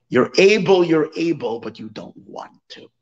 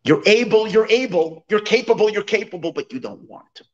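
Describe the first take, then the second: First: A retold scold, half-shouted then trailing off; scolding them, then letting it fade; mock yell. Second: The peasant's famous rebuke, half-shouted; retold yell. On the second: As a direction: hammer the repeats like a scolding. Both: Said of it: "he yells at them".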